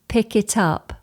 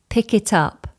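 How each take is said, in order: No difference in how they are said.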